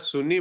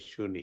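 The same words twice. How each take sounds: First: The word begins with a plain s sound. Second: The word begins with a sh sound. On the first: The speaker calls it wrong. "यहाँ सुनी बोलते हैं ना, ये सुनी नहीं है" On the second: The speaker calls it right. "ये शहद वाला श है"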